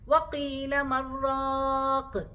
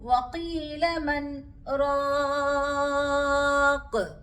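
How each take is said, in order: First: 'Man' runs straight into 'raq' as one word. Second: A brief stop without breath comes after 'man'. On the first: It sounds like a single word, changing the meaning. The speaker calls it wrong. "ചേർത്ത് ഓതാനും പാടില്ല" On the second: The two words stay separate in meaning. The speaker calls it right. "എങ്ങനെയാണ് പാരായണം ചെയ്യുക എന്ന് നോക്കാം"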